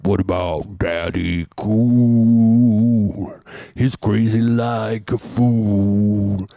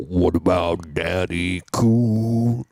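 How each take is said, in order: First: Slow sung imitation of a disco singer. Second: Slow sung line in put-on Dutch accent. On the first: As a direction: croon it slowly, swelling on the long held note. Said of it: "and then he'd go". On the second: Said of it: "do it with a good accent".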